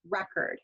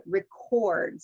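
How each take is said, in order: First: Noun "record", stressed on REC; first-syllable stress. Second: Verb "record", stressed on CORD; last-syllable stress. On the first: Teacher giving an example noun, stress on first syllable of "record". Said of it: "first, um, syllable that is stressed". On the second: Teacher giving an example verb, stress on last syllable of "record". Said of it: "stress the last syllable". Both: Shown as a demonstration.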